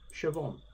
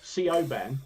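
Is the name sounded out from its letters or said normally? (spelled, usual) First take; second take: usual; spelled. First: The name is said the usual way, unlike its letters. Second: The name is sounded out following its written letters. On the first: The speaker calls it right. "pronounced Siobhan" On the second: The speaker calls it wrong. "Looks like Siobhan"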